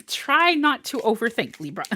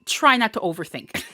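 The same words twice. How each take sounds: First: Words still carried on a laugh. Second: Said in the usual way. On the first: Real, not acted. Reader repeats her advice to Libra, laughing. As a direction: say it through a chuckle.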